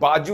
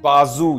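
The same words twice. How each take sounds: First: The middle consonant is a j sound. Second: The middle consonant is a z sound. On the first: The speaker calls it wrong. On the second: The speaker calls it right.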